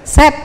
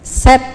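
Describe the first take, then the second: First: The vowel is a short 'e' sound. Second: The vowel is a short 'e' sound.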